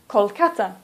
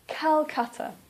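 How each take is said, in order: First: The name is said with a local pronunciation. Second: The name is said with an English pronunciation. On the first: The speaker calls it wrong. "Please don't say" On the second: The speaker calls it right. "Please say / Please try to use the English pronunciation"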